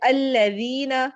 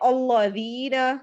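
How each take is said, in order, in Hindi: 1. L की आवाज़ पतली और हल्की होती है। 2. L की आवाज़ मोटी और भारी होती है। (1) "इनको बल्कि बारीक पढ़ना है" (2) "हम उसमें इसको इन हरूफ को भी मोटा पढ़ते हैं"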